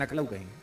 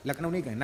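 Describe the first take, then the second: First: नखलऊ with the n and l swapped; नखलऊ instead of लखनऊ; Braj mispronunciation. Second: Said in the usual way. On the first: Shown as a demonstration. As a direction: say नखलऊ like an old Brajvasi. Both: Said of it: "लखनऊ बोले नहीं, पर नखलऊ".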